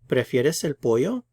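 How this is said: The voice rises at the end.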